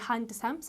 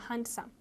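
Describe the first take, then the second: First: The d sound is pronounced. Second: The d sound is left out. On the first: The speaker calls it wrong. "don't say handsome" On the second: The speaker calls it right. "say handsome ... ዲ is silent"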